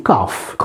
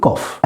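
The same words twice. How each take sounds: First: American "cough" with an open AH; American pronunciation of "cough"; American accent. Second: British "cough", short rounded O; British-style "cough"; British accent. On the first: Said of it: "American accent بنقول". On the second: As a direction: model "cough" in British English, as KOFF. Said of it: "accent بريطاني بنقول". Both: Shown as a demonstration.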